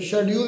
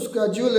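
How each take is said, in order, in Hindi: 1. यह शब्द 'sh' ध्वनि से शुरू होता है। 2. यह शब्द 'sk' ध्वनि से शुरू होता है। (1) "शेड्यूल भी है" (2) "असल में तो स्केड्यूल है"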